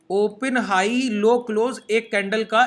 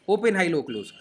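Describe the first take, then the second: First: Each candle term said slowly and deliberately; slow spelled out. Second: Said in the usual way. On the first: Shown as a demonstration. Teacher spelling out candle terms slowly for his students.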